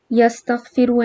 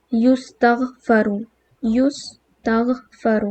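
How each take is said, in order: First: یستغفر said as yastaghfiru, a then i; یستغفر as yas-tagh-fi-ru; active form. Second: یستغفر very slowly as yustaghfaru, u first then a; یستغفر drawn out, yus-tagh-fa-ru; passive form. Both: Shown as a demonstration. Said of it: "پہلے letter پہ او آئے گا".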